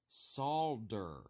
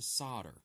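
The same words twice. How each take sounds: First: The word is said with an L sound. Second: The word is said without an L sound. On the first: It names the metal used for joining. The speaker calls it right. "It's got an L in it" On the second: It names someone who lays sod. The speaker calls it wrong. "Solder is a landscaper who puts sod in your yard"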